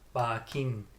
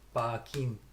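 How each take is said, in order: The two takes are said the same way.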